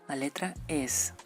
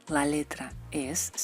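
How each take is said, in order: Both takes have the same delivery.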